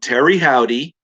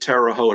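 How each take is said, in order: First: The name ends in a two-syllable 'howdy' sound. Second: The name ends in a short 'hote' sound.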